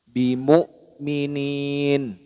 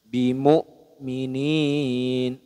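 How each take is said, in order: First: The long vowel is held for one count. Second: The long vowel is held for two counts. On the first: "itu kalau satu alif" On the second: "itu kalau dua alif"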